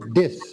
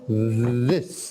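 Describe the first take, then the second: First: The first sound is not a clear 'th'. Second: The first sound is a clear 'th'. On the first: The speaker calls it wrong. "you made it sound a little bit like this" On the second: The speaker calls it right. "but this"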